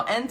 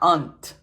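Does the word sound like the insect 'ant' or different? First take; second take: like ant; different. First: It sounds like the insect word ant. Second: It does not sound like the insect word. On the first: The speaker calls it wrong. "aunt is like a, it's like a bug" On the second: The speaker calls it right. "No, no, no, aunt"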